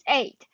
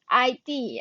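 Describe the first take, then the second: First: It is said as one single syllable. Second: It is said as two separate letters. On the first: The speaker calls it right. "it is eight" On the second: The speaker calls it wrong. "it is not pronounced as I D"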